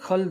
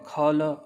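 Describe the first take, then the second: First: It is one syllable ending in a bare l. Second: It is split into two syllables, kha and la. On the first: The speaker calls it right. "हम क्या बोलते हैं" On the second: The speaker calls it wrong. "हम ऐसे नहीं बोलते हैं"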